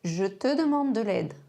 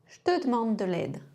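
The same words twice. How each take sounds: First: The vowels of je, te and demande are kept. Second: The vowels of je, te and demande are dropped.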